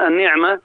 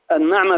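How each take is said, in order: First: النعمة pronounced "an-ni'ma", with "i" after the nun; kasra on the nun. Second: النعمة pronounced "an-na'ma", with "a" after the nun; fatha on the nun. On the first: Guest turns to the word for gift, saying النعمة as "an-ni'ma". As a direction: say النعمة with a short "ni". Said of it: "أما بكسر النون". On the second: Guest defines the word for luxury, saying النعمة as "an-na'ma". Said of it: "بفتح النون". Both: Shown as a demonstration.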